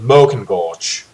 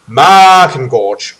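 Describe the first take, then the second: First: The first vowel is pronounced as an 'oh'. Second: The first vowel is a long drawn-out 'ah'. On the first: "or as an O" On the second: "like a drawn out A"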